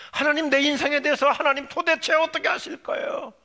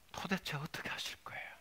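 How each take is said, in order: First: High, exasperated cry to God; loud demand. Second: Whispered, weary question to God; hushed question. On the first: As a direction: shout the question, demanding an answer. Same question repeated as outcry. (큰 소리로 다그치듯 부르짖으며) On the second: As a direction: ask it under your breath. First question to God, hushed take. (속삭이듯 낮게 따져 물으며) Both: Acted.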